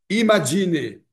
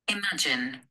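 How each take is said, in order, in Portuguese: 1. A palavra termina com uma vogal extra. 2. A palavra termina sem vogal extra. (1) "a tendência nossa é falar ... Tendemos a colocar vogal em todos" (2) "Duas sílabas"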